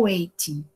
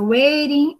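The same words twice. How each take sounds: First: "waiting" as "wei-tin", with a real T; clear T. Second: "waiting" as "wei-rin", with a flapped T; tapped T. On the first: Teacher sums up two pronunciations, "waiting" with clear T. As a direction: keep the T in "waiting" crisp. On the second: Teacher sums up two pronunciations, "waiting" with tapped T. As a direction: let the T in "waiting" become a quick tap. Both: Shown as a demonstration. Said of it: "só são essas duas pronúncias".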